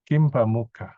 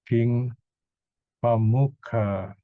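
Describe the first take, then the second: First: The first word ends in a closed-lip m sound. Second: The first word ends in an open ng sound. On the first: "when you pronounce Kim, you have to close your lips" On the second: "this king, you can remove the dot"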